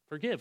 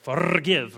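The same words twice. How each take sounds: First: It is said in the speaker's plain accent. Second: It is said in a Scottish accent.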